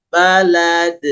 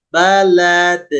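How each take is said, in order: Both takes have the same delivery.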